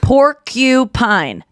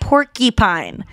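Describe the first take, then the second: First: The middle syllable has a clear u vowel. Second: The middle syllable has a reduced, different vowel. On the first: The speaker calls it right. "There's a U" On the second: The speaker calls it wrong. "It's not porcupine"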